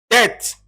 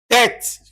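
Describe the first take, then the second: Both takes have the same delivery.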